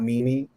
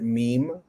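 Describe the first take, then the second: First: The word is said as two syllables. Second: The word is said as one syllable. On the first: The speaker calls it wrong. "not mimi, like I did at one point in my life" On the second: The speaker calls it right. "Pronounce it meme"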